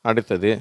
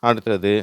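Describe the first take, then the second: The two takes are said the same way.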